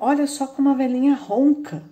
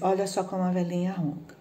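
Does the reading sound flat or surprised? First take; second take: surprised; flat. First: It is read with a surprised, exclaiming tone. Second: It is read in a flat, plain tone. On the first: The speaker is amazed by the snoring. The speaker calls it right. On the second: No amazement is conveyed. The speaker calls it wrong.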